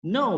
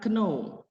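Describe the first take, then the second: First: The k at the start is silent. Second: The k at the start is pronounced. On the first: The speaker calls it right. "no bacanya" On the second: The speaker calls it wrong. "bukan kno"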